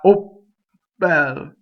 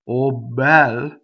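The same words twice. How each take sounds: First: The voicing stops before the doubled B. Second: The voicing continues through the doubled B. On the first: The speaker calls it wrong. "not oh bel" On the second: The speaker calls it right. "double double B is oh bel"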